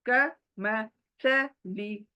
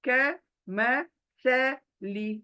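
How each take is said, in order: Both takes have the same delivery.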